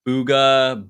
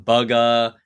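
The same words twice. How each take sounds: First: Booga with a long "oo" as in boot; common pronunciation. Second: Bugga with a short "u" as in bug; first syllable of Bugga rhymes with rug; other common pronunciation. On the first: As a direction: say Booga as "BOO-guh". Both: Shown as a demonstration. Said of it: "everyone either says Booga".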